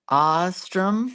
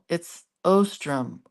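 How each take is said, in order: First: The first vowel sounds like 'aw'. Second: The first vowel sounds like 'oh'. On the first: "spelled it with an A U, Ostrom, like that" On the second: "no, it's Ostrom"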